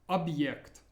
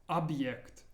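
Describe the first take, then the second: Both takes have the same delivery.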